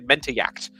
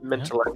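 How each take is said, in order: First: The double L is said as a Y sound. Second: The double L is said as an L sound.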